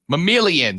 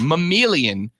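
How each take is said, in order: First: The word is said quickly and loosely. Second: The word is said slowly and carefully. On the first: The speaker calls it wrong. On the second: The speaker calls it right.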